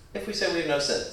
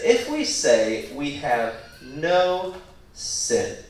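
First: Said in the usual way. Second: Drawn-out, deliberate quote, each phrase weighted; spaced-out words, stretched for emphasis; slow, emphatic reading. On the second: Shown as a demonstration. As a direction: read it out slowly and solemnly. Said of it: "The emphasis is on the verb".

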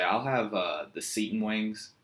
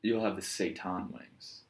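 First: "seitan" said SEE-tn, Virginia style; Virginian pronunciation. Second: Slow correction, "seitan" said SAY-tahn; correcting pronunciation. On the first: Virginian ordering in the Bay Area, "seitan" as SEE-tn. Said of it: "with a Virginian accent, you say". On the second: Bay Area server correcting the customer, "seitan" as slow SAY-tahn. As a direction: slowly stress "seitan" as SAY-tahn. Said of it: "And they're like, "Excuse me?". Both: Acted.

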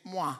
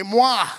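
First: "Moi" said plainly in French, first try. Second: "Moi" called out loud in French, a playful flourish; French moi, louder. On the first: Pastor first teaching the church to say the French word, plain. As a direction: model "Moi" for the room to repeat. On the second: Pastor leading the congregation to shout the French word, loud. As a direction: belt out "Moi" with fancy flair. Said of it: "And so, say". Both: Shown as a demonstration.

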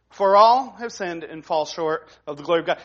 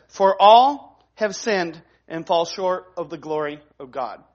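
First: Said in the usual way. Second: Slow emphatic reading. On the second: Shown as a demonstration. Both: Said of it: "And it says simply this".

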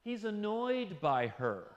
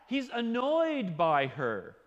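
First: Said in the usual way. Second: "annoyed" drawn out slowly and louder; slow emphatic repeat. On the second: Shown as a demonstration. Preacher repeating the point for weight, slow and emphatic. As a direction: lean hard into "annoyed", slowly.

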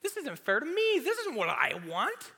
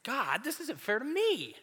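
First: Even higher, louder whine on "This isn't fair to me"; high, loud petulant tantrum voice; whinier complaint. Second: High, whining "God, this isn't fair to me"; high petulant complaint; whiny complaint. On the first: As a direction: push the whine up into a squeal. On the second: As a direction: whine to God like a sulky kid. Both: Retold or imitated.

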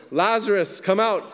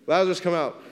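First: High, loud call into the tomb; loud cry. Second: High, loud call again. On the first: A narrator's reading. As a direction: call Lazarus out with full force. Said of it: "Jesus cried out with a loud voice". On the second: Retold or imitated. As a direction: cry it out to the tomb. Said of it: "he was like".

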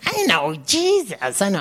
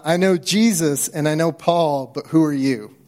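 First: Evil spirit voice. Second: Said in the usual way. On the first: Shown as a demonstration. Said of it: "should I do an evil spirit voice?". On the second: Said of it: "That's what this evil spirit says".

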